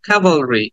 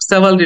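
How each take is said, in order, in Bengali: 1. শব্দটি k sound দিয়ে শুরু। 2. শব্দটি s সাউন্ড দিয়ে শুরু। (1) "কে এর পরে একটা এস সাউন্ড" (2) "এটাকে অনেকে স্যাভালরি বলে থাকে, বাট স্যাভালরি না"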